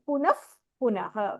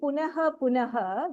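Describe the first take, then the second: First: The first word ends in an f-like sound. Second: The first word ends in a breathy h sound. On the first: "We are saying the if sound there" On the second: "Instead of saying punaha punaha"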